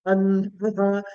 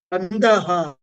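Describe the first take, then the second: First: "Andaha" with the A raised in pitch; upward intonation on A. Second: "Andaha" starting on a lowered A; downward intonation on A. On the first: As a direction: lift the tone on "A" in "Andaha". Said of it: "A carrying upward intonation". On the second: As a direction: begin low on "A" in "Andaha". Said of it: "there A is down". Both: Shown as a demonstration.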